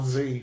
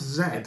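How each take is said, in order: First: The letter is said the American way, as zee. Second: The letter is said the British way, as zed.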